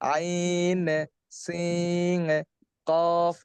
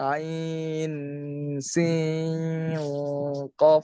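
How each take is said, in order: First: The nasal sound is cut off and released early. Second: The nasal sound is held through without a break. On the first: "সারলে এমনটা শোনা যাইতো" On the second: "আমি কিন্তু সারি নাই।"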